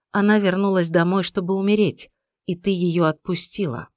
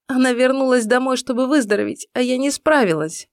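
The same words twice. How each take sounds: First: Уверенно. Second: Высоко, со слезами в голосе; надломленно оправдывайся; в слезах. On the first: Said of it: "уверенно произнёс Джеймс". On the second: Иден плачет, винит себя. (сквозь слёзы) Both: A narrator's reading.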